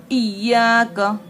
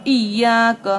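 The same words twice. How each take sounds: First: इय्याक with a strong doubled य; firm shadda. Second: इय्याक clipped, doubled य pressed louder; firm shadda. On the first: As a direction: press on the य in इय्याक. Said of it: "तशदीद है तो सख्ती से पढ़ना है". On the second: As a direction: hit the doubled य in इय्याक hard. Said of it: "सख्ती से पढ़ना है". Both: Shown as a demonstration.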